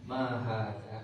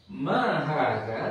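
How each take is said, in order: First: Mahada said flat and falling, no rise; flat, not a question. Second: Mahada slow, rising like a real question; asking tune. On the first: Teacher showing the wrong flat tune on a question. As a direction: say Mahada like a statement by mistake. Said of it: "Itu nggak nanya". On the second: Teacher showing the right questioning tune on Mahada. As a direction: ask Mahada as a true question. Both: Shown as a demonstration.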